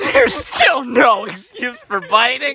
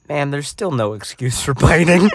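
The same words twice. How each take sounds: First: High, slow mocking laugh-through repeat; mock the line while cracking up. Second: Said in the usual way. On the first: Brother repeating the director's line through laughter, high and slow. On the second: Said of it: "his direct quote was".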